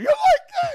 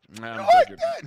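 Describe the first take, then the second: First: It is said in a high, squeaky voice. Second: It is said in a normal speaking voice. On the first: The speaker calls it right. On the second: The speaker calls it wrong.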